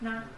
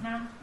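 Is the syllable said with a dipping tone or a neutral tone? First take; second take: neutral; neutral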